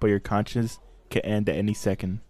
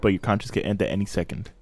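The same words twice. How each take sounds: First: The sentence is spoken slowly. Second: The sentence is spoken quickly. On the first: "say it slower?" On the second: "he just rapped it"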